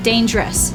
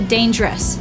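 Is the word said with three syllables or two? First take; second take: two; two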